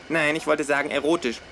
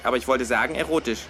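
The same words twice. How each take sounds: First: Higher, wollte leaned on and falling; stress on wollte. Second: "erotisch" pressed with a falling close; stress on erotisch. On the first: Kangaroo correcting its flatmate, stress on wollte. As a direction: hit "wollte" hard, erotisch tossed off. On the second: Kangaroo insisting on its word swap, stress on erotisch. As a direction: land on "erotisch", smug. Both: Acted. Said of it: "Ich meinte natürlich ironisch".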